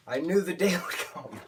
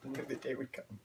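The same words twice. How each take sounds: First: Laughing admission. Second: Quiet repeat. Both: Real, not acted.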